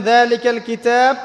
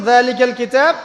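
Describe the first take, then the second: No difference in how they are said.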